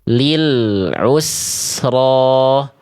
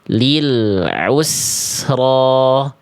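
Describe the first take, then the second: Both takes have the same delivery.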